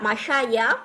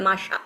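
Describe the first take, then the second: First: The word ends with a 'ya' syllable. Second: The word ends in a plain 'a' vowel. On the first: The speaker calls it wrong. "ওরা যে ইয়াটা উচ্চারণ মানে খুব দে দে they don't feel এটা comfortable" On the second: The speaker calls it right. "যার কারণে তারা বলে মাসা"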